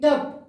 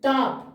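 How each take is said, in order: First: The vowel is a short, central 'uh' sound. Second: The vowel is a long, open 'aa' sound.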